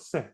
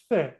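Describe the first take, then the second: First: It starts with an s sound, Latin American-style. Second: It starts with a th sound, Spain-style.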